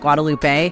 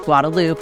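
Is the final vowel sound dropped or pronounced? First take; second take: pronounced; dropped. First: The final E sound is pronounced. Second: The final E sound is dropped. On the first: It sounds like an outsider. The speaker calls it wrong. "not Guadalupe" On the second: It sounds local to Texas. The speaker calls it right. "in Texas, we don't pronounce that"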